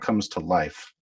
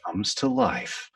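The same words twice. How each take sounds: First: The voice falls on the word life. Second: The voice lifts on the word life.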